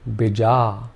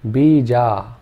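First: Only the second vowel is long. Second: Both vowels are long. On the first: "if we made the second vowel sound long" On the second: "If we made both the vowel sounds long"

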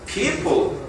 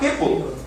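First: The word is said slowly and carefully. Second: The word is said quickly and loosely. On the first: "천천히 하는 사람은" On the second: "근데 빨리 와"

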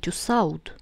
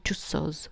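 First: The ending is pronounced like 'awd'. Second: The ending is pronounced like 'oz'. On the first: The speaker calls it wrong. "Не Тюссауд" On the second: The speaker calls it right. "да, Тюссоз"

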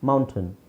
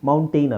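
First: The last syllable sounds like a short 'tun'. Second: The last syllable sounds like 'tain'. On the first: The speaker calls it right. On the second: The speaker calls it wrong. "ಮೌಂಟೈನ್ ಅಲ್ಲ"

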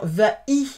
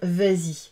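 First: The words are said apart with no linking sound. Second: A z sound links the two words smoothly. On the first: The speaker calls it wrong. "Ben c'est pareil" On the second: The speaker calls it right. "C'est plus harmonieux si je rajoute un S"

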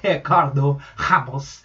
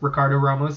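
First: The names are said without R sounds. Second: The names are said with R sounds. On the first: The speaker calls it right. "the way he wanted it pronounced" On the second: The speaker calls it wrong. "We were pronouncing it wrong by pronouncing it with R's"

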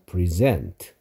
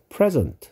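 First: The stress is on the second syllable. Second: The stress is on the first syllable. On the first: It means to give formally. "주다, 수여하다란 뜻일 때는 present라고 여기를 세게 읽어야 된다" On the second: It means a gift. "선물이란 뜻일 때는 여기를 세게 읽어서 present라고 읽어야 된다"

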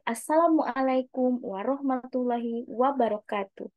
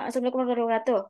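First: The words are articulated clearly. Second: The words are mumbled and unclear.

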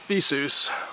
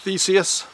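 First: The ending sounds like 'Zeus', in one syllable. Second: The ending is split into two syllables, '-ee-us'. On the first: The speaker calls it right. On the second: The speaker calls it wrong.

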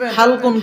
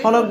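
First: It is said as halqun, ending in kun. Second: It is said as holok, ending in k. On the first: The speaker calls it right. "হাল কফ দুই পেশ কোন, হালকুন।" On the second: The speaker calls it wrong. "তাহলে এটা ভুল না সঠিক? ভুল।"

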